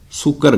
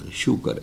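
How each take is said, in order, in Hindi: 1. यह शब्द सादी 's' ध्वनि से शुरू होता है। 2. यह शब्द 'sh' ध्वनि से शुरू होता है। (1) "अज लफज शूकर नहीं गा" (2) "शूकर है"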